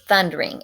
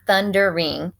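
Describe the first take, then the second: First: "thundering" squeezed into two syllables, thun-dring. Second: "thundering" in three full syllables, thun-der-ing. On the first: Teacher showing the poet's meter, "thundering" shortened to thun-dring. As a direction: drop the middle vowel of "thundering". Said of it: "She makes it thundering". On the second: Teacher showing the unshortened word, "thundering" in three separate syllables. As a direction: sound out every syllable of "thundering". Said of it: "she uses this kind of apostrophe". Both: Shown as a demonstration.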